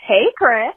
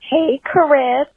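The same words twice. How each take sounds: First: Said in the usual way. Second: Cracking voice on the name. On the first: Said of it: "We'll start over". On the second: Real, not acted. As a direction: voice cracks on the greeting. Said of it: "Oh my God, my voice just cracked".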